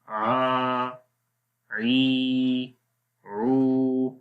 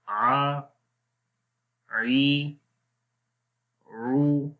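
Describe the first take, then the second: First: The vowels are drawn out long. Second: The vowels are said short and clipped. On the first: The speaker calls it wrong. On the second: The speaker calls it right.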